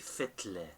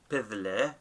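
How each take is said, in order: First: The word begins with an F sound. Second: The word begins with a P sound. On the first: This is how it is usually spoken, like the Western dialect. "but we say Fitle" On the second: This is the form as written. "it should be Pidle"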